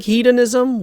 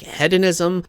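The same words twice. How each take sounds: First: Hedonism with a long "ee", HEED-onism; long-E pronunciation. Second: Hedonism with a short "e", HED-onism; short-E pronunciation. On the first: Reviewer explaining the mistaken game name, hedonism said as HEED-onism. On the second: Reviewer giving the other accepted form, hedonism said as HED-onism. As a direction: say hedonism starting like "head". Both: Shown as a demonstration. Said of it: "can also be pronounced".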